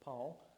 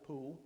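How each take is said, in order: First: The name is said with an 'aw' vowel. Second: The name is said with an 'oo' vowel. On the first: This is the name as the speaker knows it. "but it's Paul" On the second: This is how the local people say the name. "They pronounce it Pool"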